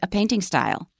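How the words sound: The stress falls on the word painting. The speaker calls it right. "we say; 被修饰的那个名词是没有重音的"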